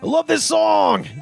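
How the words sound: It is said in a put-on Big Papa voice.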